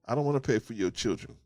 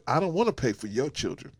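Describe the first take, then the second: No difference in how they are said.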